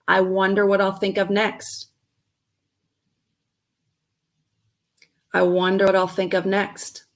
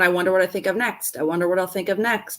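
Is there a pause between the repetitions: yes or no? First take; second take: yes; no. First: A short pause separates the two repetitions. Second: The repetitions run together without a gap.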